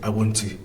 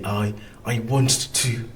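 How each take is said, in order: First: A single t sound is said. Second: Two separate t sounds are said. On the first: The speaker calls it right. "We just say I want to. So we pronounce just one t" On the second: The speaker calls it wrong. "we don't say"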